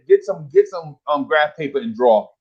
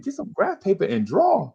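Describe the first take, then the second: First: Said in the usual way. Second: High-pitched, disbelieving retold echo; retold schoolkid disbelief; incredulous echo. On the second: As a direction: repeat the order as if baffled, high and softer. Pupil echoing teacher in disbelief.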